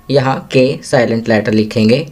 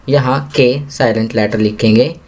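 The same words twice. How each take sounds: The two takes are said the same way.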